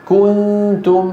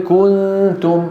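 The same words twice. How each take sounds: Both takes have the same delivery.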